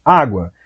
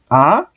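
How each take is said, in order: First: Said in the usual way. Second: "Água" split as "Á", long pause, "gua"; syllables separated. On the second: Shown as a demonstration. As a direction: break "Água" in two, first part rising. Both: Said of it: "Vai separar, olha aí".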